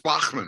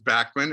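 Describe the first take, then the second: First: The name is said the German way. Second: The name is said the Canadian way.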